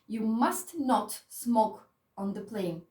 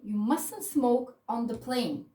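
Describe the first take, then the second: First: Must not is said as two full words. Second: Must not is contracted to mustn't. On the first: It is an even stronger prohibition. "sounds even stronger" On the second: It is a natural, everyday prohibition. "It's more natural, okay? It's easier"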